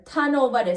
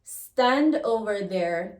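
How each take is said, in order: First: Tan over there, S dropped, open a; patois S drop. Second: Said in the usual way. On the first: Shown as a demonstration.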